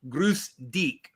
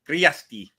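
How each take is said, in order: First: It is said in common Southern German form. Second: It is said in the Allgäu dialect form. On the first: "in Southern German, one of the ways you greet people is Grüß dich" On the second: "the Allgäu ... they don't say Grüß dich. They say Griasti"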